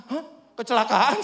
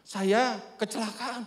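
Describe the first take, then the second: First: Loud, rising startled question; retold shocked echo. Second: Slow, drawn-out admission; retold subdued confession. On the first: Preacher hearing his neighbour had an accident, startled. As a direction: echo the news in loud disbelief. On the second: Injured neighbour telling the preacher of his accident, slow and subdued. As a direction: quote an injured man slowly breaking the news.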